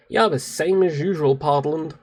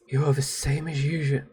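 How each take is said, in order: First: Clumsy attempt at an American accent; bad American accent. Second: Said in the usual way. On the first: Shown as a demonstration. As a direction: put on a shaky imitation American accent. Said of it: "my American accent is, pff, terrible".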